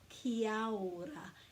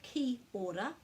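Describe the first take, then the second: First: The 'a' after 'ki' is pronounced. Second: The 'a' after 'ki' is left out. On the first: The speaker calls it right. "which is a little bit more accurate than ki ora" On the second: The speaker calls it wrong. "they're leaving out this A"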